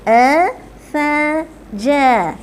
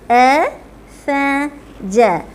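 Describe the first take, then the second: The two takes are said the same way.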